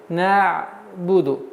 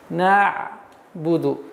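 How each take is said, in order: The two takes are said the same way.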